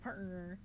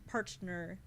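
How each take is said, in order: First: The T sound is dropped from the word. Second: The T sound is clearly pronounced. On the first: "I would say" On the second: "but I wouldn't say"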